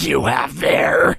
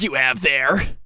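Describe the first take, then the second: First: It sounds strongly menacing and bloodthirsty. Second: It sounds only slightly menacing. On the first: The speaker calls it right. "it's more bloodthirsty" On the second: The speaker calls it wrong. "almost bloodthirsty"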